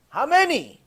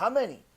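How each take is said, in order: First: How many, much higher and louder; outraged repeat. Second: Said in the usual way. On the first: Real, not acted. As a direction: demand it again in outrage. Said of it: "repeated rhetorical".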